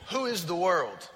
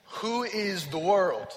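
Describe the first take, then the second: First: Said in the usual way. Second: Slow, leaning hard on "world"; "world" drawn out and stressed, the question asked slowly. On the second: Shown as a demonstration. Repeats the question to the congregation, slowly stressing "world". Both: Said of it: "let's try this one more time".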